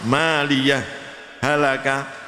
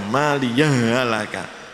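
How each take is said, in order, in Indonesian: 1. Jeda singkat memisahkan kedua kata itu. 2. Kedua kata itu menyatu tanpa jeda. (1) "dibaca saktah" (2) "dibaca idhom"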